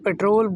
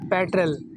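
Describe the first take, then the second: First: It is said the common local way. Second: It is said the native English way. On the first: The speaker calls it wrong. "हम इसको पेट्रोल बोलते हैं" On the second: The speaker calls it right. "इसकी correct pronunciation है"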